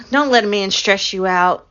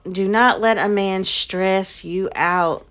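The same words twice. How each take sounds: First: Said in the usual way. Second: Slow, with not split off and pressed; stress on not. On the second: Shown as a demonstration. Telling her viewers firmly, slow stress on not. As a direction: spell out Do not, leaning on not.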